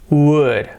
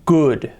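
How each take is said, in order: First: The word begins with a W sound. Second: The word begins with a G sound. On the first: The speaker calls it right. "we have to leave open our throat and our mouth" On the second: The speaker calls it wrong. "if we close our throat, we say good, con G"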